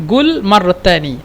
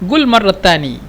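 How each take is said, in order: Both takes have the same delivery.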